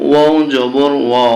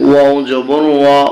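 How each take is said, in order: The two takes are said the same way.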